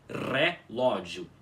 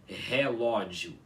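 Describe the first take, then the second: First: The first R is strongly rolled. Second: The first R is not rolled. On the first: The speaker calls it right. "se pronuncia como relógio" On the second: The speaker calls it wrong. "e não como relógio, com o R parecido com o nosso"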